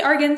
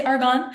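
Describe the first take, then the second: First: "argan" said AR-gun; "argan" ending in a short, weak -gun; ARGAN with a reduced ending. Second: "argan" said AR-gahn; "argan" ending in a clear -gahn; ARGAN with open ending. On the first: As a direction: say argan with an unstressed second syllable, like AR-gun. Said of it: "Some people say argan". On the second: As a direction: say argan with a full open ah in the second syllable. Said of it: "some people say argan". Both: Shown as a demonstration.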